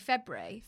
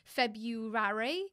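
First: A sound is dropped, unlike the spelling. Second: Every letter is pronounced, as the word is spelled. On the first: "but I say February" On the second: "I think you say it how it's spelled"

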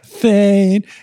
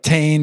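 First: The name begins with a 'th' sound. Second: The name begins with a plain 't' sound. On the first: "the TH thing doesn't fly in French" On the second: "We're pronouncing the Thane is more like Tane"

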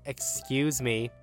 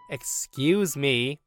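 First: It is said at a normal, quieter volume. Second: It is said louder.

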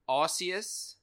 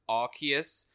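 First: The name starts without a hard 'ark' sound. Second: The name starts with a hard 'ark' sound. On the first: This is the older way of saying it. The speaker calls it wrong. "I used to call it" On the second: This is the newer way of saying it. The speaker calls it right. "I think it's got something to do with a lightning arc"

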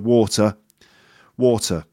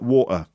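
First: The middle T is clearly pronounced. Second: The middle T is dropped.

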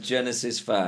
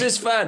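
First: The phrase is said at a normal, subdued volume. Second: The phrase is shouted loudly. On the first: The speaker is reluctant to admit it. "I can feel he's still uncomfortable with it" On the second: The speaker proclaims it boldly over loud music. "Shout it. ... Why are you shouting?"

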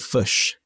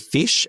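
First: The vowel is a central 'u' as in 'fush'. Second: The vowel is a short 'i' as in 'fish'. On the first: This is how the other country's accent says it. "they would say fush" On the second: This is how the speaker's own accent says it. "we would say fish"

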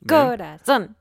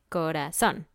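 First: Two syllables are both said strongly. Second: Only the last syllable is said strongly. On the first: The speaker calls it wrong. "Como 2 acentos en uno y eso no es posible" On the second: The speaker calls it right. "solo hay un acento"

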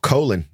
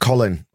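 First: The name is pronounced in the American way. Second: The name is pronounced in a non-American way.

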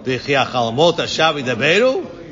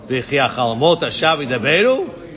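First: It is said as a doubting question. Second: The same.

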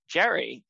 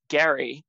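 First: The name begins with a J sound. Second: The name begins with a hard G sound. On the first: The speaker calls it wrong. "rather than Jerry" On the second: The speaker calls it right. "pronounced Gary with a hard G"

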